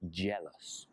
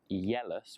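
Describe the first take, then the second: First: The word begins with a J sound. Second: The word begins with a Y sound. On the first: The speaker calls it right. "but with a J" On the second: The speaker calls it wrong. "not yellous with a Y"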